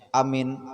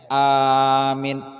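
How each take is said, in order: First: Both vowels are short. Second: The first vowel is long, the second short. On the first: It means a sense of safety. "Kalau dipendekkan awalnya, dipendekkan akhirnya" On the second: It means one who gives safety. "Panjang awalnya, pendek akhirnya"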